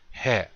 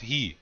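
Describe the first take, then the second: First: It is said with the Lakota pronunciation. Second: It is said with the English pronunciation. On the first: The speaker calls it right. "in the Lakota, it's pronounced as he" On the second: The speaker calls it wrong. "it's not he"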